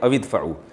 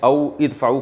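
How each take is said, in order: First: The two words are run together as one. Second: The two words are said separately. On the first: "मिला के पढ़ते हैं" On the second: "असल में था औ इदफ़उ"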